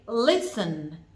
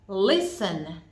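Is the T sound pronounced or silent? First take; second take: silent; silent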